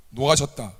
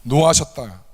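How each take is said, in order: First: Said in the usual way. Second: 노하셨다 said firmly and louder, falling; 노하셨다 punched, then dropping; stressed. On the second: Shown as a demonstration. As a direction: lean on 노하셨다 with weight. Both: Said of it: "크게 분노하십니다".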